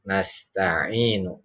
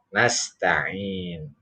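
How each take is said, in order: First: The word ends with a final u vowel. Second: The word ends on a consonant, no vowel. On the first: The reading continues on without stopping. "kalau dibaca wasal atau sambung" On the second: The reading stops at this word. "Kalau dibaca mati maka ini tidak berlaku u-nya"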